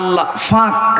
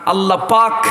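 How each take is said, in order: First: The second word begins with an f sound. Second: The second word begins with a p sound. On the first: "ওরা প বলতে পারে না" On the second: "বলতে পারে না"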